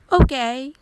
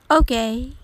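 First: It is said with mild, surprised approval. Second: It is said hesitantly, with unimpressed doubt. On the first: The drink is better than expected. "珍しい飲み物が思ったよりまあまあいい味だったとき" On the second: The drink is not very good. "珍しい飲み物を初めて飲んで微妙だったとき"

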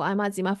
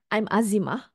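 First: It is said fast and flat, without emphasis. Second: It is said slowly, with emphasis on the name. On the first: The speaker seems nervous and untrained. The speaker calls it wrong. "read out loud without emphasizing and pausing" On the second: The speaker seems trained and sure. The speaker calls it right. "I said that confidently"

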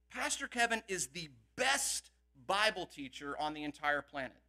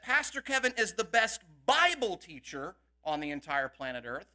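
First: The word best is stressed. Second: The word Bible is stressed.

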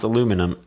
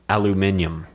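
First: The word is said with four syllables. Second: The word is said with five syllables.

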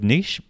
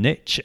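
First: The word does not rhyme with 'riches'. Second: The word rhymes with 'riches'. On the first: "instead of niche" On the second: "it only really works if we're using niche"

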